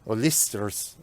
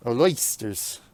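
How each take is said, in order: First: OYSTERS said as "oh-LIS-ters"; tentative pronunciation. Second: OYSTERS said as "oh-LOYS-ters"; alternative pronunciation. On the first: Driver trying out a tricky name, short-i pronunciation. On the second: Driver retrying a tricky name, oy-vowel pronunciation. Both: Shown as a demonstration. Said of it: "I wanna say oils".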